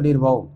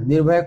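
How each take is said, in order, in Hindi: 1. यह शब्द 'au' ध्वनि पर खत्म होता है। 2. यह शब्द 'ay' ध्वनि पर खत्म होता है। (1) "लोकल भाषा में निर्भौ बोला जाता" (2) "निर्भय शब्द है निर्भय"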